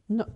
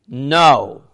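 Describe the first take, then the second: First: The word is said softly and gently. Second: The word is said firmly and sternly. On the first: The refusal is not meant seriously. The speaker calls it wrong. "that's wrong pronunciation" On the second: The refusal is final and must be obeyed. The speaker calls it right. "Now you have to say it properly"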